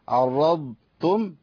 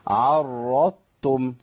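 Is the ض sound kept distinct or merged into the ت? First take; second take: kept; merged. First: The ض is kept with its own buzzing sound. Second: The ض becomes ط and merges into ت. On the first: The speaker calls it right. "سامعين الزنه دي؟ دي رخاوه الضاد" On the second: The speaker calls it wrong. "انا كده ابدلت الضاد بطاء"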